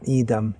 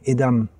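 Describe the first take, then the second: First: The first vowel is drawn out long. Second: The first vowel is kept short. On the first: The speaker calls it wrong. "not idam" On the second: The speaker calls it right. "Kratko i short"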